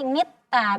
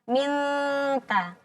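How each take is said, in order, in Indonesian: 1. Bunyi n digantikan dengan t yang digandakan. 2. Bunyi n adalah sengau setengah tersembunyi sebelum t. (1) "Kalau kita jelaskan jadi ta, jadi mitta" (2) "Berarti antara keduanya. ... ujung lidahnya menggantung"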